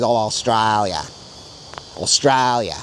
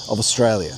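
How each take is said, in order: First: Australia stretched into a broad Australian "Ostrailya". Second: Australia said the Sydney Australian way; Sydney accent. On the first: To viewers, contrasting with the Sydney way, broad Australian accent. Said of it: "A more broad Australian way is". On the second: To viewers, comparing Sydney and broad Australian, Sydney accent. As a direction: give it the Sydney Australian twang. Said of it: "That's a more Sydney way of saying it". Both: Shown as a demonstration.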